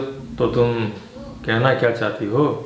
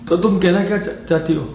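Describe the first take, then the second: First: It is said in a tender, romantic tone. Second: It is said in a frightened, fearful tone. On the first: "आप romantic तरीके से भी बोल सकते हो" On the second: "आप उसको भय से ही बोल सकते हैं"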